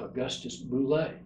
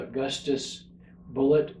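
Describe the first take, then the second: First: The surname is said with a French pronunciation. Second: The surname is said with an English pronunciation. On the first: This is how the original ancestor said the name. "he would have called himself Augustus Boulet" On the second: This is the family's current form of the name. "anglicized the name to Bullet without changing the spelling"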